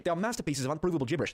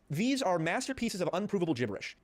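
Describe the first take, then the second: First: Badly faked British accent. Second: Said in the usual way. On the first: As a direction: quote it in an amateur British accent. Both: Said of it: "This is not what he sounds like at all".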